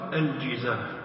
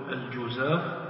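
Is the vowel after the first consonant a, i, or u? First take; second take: i; u. First: The first vowel is a front i sound. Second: The first vowel is a rounded u sound. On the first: "ويجوز فيها الكسر الجزاف، والكسر أفصح" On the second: "يجوز أن تنطق بالضم تقول الجزاف"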